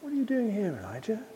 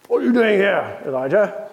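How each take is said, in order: First: The question is asked in a soft, gentle voice. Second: The question is asked in a harsh, scolding voice. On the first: This is a kind inquiry. The speaker calls it right. "It's just a gentle query" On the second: This is a rebuke. The speaker calls it wrong. "It's not with a "What are you doing here, Elijah?" kind of voice"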